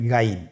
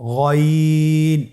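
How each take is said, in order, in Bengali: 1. স্বরটি চিকন ও খোলা। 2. স্বরটি মোটা ও গাঢ়। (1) "এটা ভুল উচ্চারণ" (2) "মোটা করে উচ্চারণ করতে হবে"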